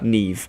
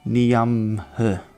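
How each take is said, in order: First: The name is said natively, like 'Neeve'. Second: The name is read out letter by letter. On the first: The speaker calls it right. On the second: The speaker calls it wrong.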